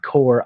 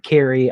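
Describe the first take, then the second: First: The name is one syllable with an 'or' vowel. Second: The name has two syllables, ending in 'ee'. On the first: "Someone else said Core" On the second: "I said Carrie. I don't think that's right"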